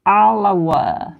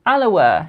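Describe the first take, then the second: First: "Alawa" said slowly, each syllable spelled out: a-la-wa; careful pronunciation. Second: Said in the usual way. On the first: Shown as a demonstration. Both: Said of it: "I'll pronounce it perfectly".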